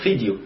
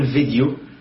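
First: The word begins with an F sound. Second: The word begins with a V sound. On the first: The speaker calls it right. "اسمه فيديو لأن أنا ما عنديش حرف الفي" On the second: The speaker calls it wrong. "ما ينفعش أقول فيديو"

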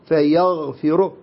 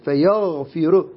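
First: The final r is pronounced thick. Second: The final r is pronounced thick.

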